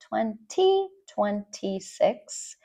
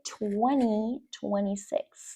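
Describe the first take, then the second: First: The T after the N is pronounced. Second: The T after the N is dropped. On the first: "Notice I did not say twenty twenty-six" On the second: "We just say the N sound"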